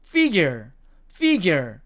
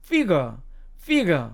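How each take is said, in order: First: Figure said FIG-yer, with a y glide and r; American figure, ending in -yer; American pronunciation. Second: Figure said FIG-uh, no y glide or r; British figure, ending in a plain uh; British pronunciation. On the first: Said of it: "미국식 발음으로 가면". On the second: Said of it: "영국식으로 가면". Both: Shown as a demonstration.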